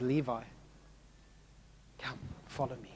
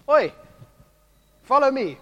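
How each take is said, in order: First: Soft, lower, quiet invitation; Jesus quietly invites Levi to follow; gentle call. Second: A sharp, higher call of Oi then follow me; a bold summons, louder and higher. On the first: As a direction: invite him gently and personally. Jesus calls Matthew personally. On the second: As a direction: call him over with a firm shout. Jesus calls the disciples. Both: Retold or imitated.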